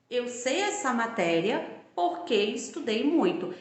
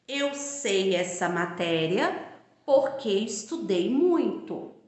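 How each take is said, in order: First: Said in the usual way. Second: Slow, deliberate read of the example; teacher dictating the example slowly; slow example sentence. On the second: Shown as a demonstration. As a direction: lay out each word of "Eu sei essa matéria porque estudei muito" slowly, as a model.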